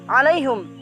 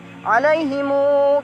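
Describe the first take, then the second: First: The word ends with a short hum. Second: The word ends with himu, the final vowel lengthened. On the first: "membaca dumah huruf ha" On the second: "dengan memanjangkan munya menjadi dua harokat"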